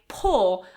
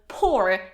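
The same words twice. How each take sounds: First: It is said with a British pronunciation. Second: It is said with an American pronunciation.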